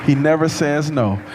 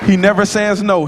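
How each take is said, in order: First: Never leaned on, said at usual pitch and level; stress on NEVER. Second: HE hit high and loud, the rest falling away; stress on HE. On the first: Director repeating his praise to the audience, stress on NEVER. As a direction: put the weight on never, calmly. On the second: Choir director praising his student, stress on HE. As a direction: punch the word he, pitched up. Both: Real, not acted. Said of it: "He reminds me a lot of myself".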